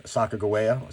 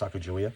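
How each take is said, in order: First: Sacagawea with a hard g, "-guh-WAY-uh"; hard-g pronunciation. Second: Sacagawea with a soft j, "-juh-WEE-uh"; soft j in place of the g in Sacagawea; soft-j pronunciation. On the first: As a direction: say Sacagawea as "sah-kah-guh-WAY-uh". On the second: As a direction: say Sacagawea as "sah-kah-joo-WEE-uh". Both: Shown as a demonstration. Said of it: "sometimes pronounced Sacagawea".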